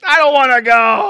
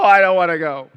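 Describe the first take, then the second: First: High, loud, rising whine; childish whine. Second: Loud whine falling to a pout; sulky whine. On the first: Churchgoer resisting accountability group, high loud childish whine. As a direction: stamp your foot like a sulky kid. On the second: Churchgoer resisting accountability group, falling sulky whine. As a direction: sulk it out, settling down. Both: Retold or imitated. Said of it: "how most of us feel".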